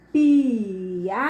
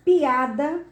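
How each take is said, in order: First: "piada" stretched out as pi, a, da with pauses; syllable by syllable. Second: Said in the usual way. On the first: Shown as a demonstration. Teacher showing the class each vowel, "piada" split into syllables. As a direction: draw "piada" apart syllable by syllable.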